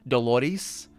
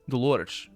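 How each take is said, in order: First: It is said the Brazilian Portuguese way. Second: It is said the European Portuguese way. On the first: "closer to a Brazilian Portuguese name" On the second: "I'm pronouncing it with the European accent for, or actually for European Portuguese"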